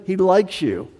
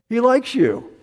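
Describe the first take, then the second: First: Said in the usual way. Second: "likes" lifted much higher and hit hard; emphatic repeat. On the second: Acted. Preacher stressing to the congregation that God likes them, rising emphasis on "likes". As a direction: lean into "likes", pitch it up high.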